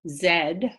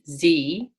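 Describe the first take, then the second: First: The letter is said the British way, as zed. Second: The letter is said the American way, as zee.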